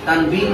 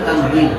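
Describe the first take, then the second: First: The consonant after 'tan' is a b sound. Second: The consonant after 'tan' is a w sound. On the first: The speaker calls it wrong. "তানবিন না তানউইন?" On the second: The speaker calls it right.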